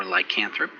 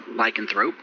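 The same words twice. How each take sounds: First: Lycanthrope with a full, open "can" in the middle; alternate lycanthrope pronunciation. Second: Lycanthrope with a reduced "kuhn" in the middle; lycanthrope pronunciation variant. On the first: Game master offering players the other pronunciation, lycanthrope said ly-CAN-thrope. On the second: Game master offering players one pronunciation, lycanthrope said LY-kuhn-throhp. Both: Shown as a demonstration.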